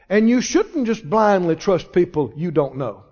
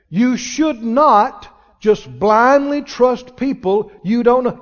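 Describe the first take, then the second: First: It is said at normal speed. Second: It is said very slowly.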